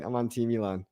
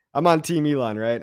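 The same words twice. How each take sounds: First: Quiet repeat. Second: Said in the usual way. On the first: Real, not acted.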